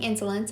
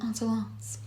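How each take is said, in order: First: It is said with an English accent. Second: It is said with a French accent. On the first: "maybe I should just be saying Insolence" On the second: "but I do like saying Insolence"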